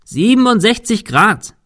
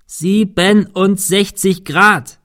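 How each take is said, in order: First: "Siebenundsechzig" called much higher and louder with a rising end; shouting. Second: "Siebenundsechzig Grad" slow and drawn out, falling on "Grad"; puzzled echo. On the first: Thomas calling the angle to Cecil through rain, shouting. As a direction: shout the angle across the roof. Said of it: "rief Thomas dem Wind entgegen". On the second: Cecil echoing the number he doesn't understand, slow puzzled. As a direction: repeat it slowly, clueless. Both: A narrator's reading.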